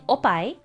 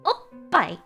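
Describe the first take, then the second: First: The word flows on with no pause. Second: A short held pause comes before 'pai'. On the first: The speaker calls it wrong. "Instead of saying opai" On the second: The speaker calls it right. "hold back at oh and then let it out loud at pai"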